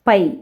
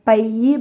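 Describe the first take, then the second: First: The word ends without any added vowel. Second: The word ends with an added vowel sound. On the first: This is the written, standard form. The speaker calls it right. "எழுத்து வழக்குக்கு மாற்றுறதுக்காகத்தான்" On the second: This is how a child says it in everyday speech. The speaker calls it wrong. "பையன் எப்படி சொல்லுவான்?"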